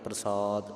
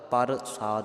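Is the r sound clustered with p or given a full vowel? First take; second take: clustered; full vowel. First: The p and r are joined, said quickly. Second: A full vowel separates the p and r. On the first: The speaker calls it right. "ਥੋੜਾ ਜਿਹਾ ਤੇਜ਼ ਬੋਲਣਾ" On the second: The speaker calls it wrong. "ਪੂਰਾ ਰਾਰਾ ਨਹੀਂ ਲਾ ਦੇਣਾ, ਪਰ ਸਾਦ ਨਹੀਂ ਕਰਨਾ"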